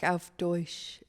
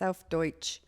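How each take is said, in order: First: It is said in a soft, flowery way. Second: It is said crisply, with every letter sounded. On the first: The speaker calls it wrong. "You tried to make it too uh, flowery. You're like" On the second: The speaker calls it right. "You have to pronounce every single letter"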